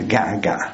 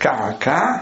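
First: The word starts with a g sound. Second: The word starts with a k sound.

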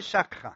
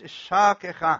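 First: No vowel follows the k sound. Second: A short vowel follows the k sound. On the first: The speaker calls it wrong. "לא" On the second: The speaker calls it right. "קוף, שווה, נע"

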